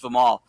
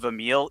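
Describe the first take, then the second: First: The name begins with 'vih' and ends with 'mal'. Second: The name begins with 'vah' and ends with 'mil'. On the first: The speaker calls it right. "his name's Vimal" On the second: The speaker calls it wrong. "he kept calling him Vamil"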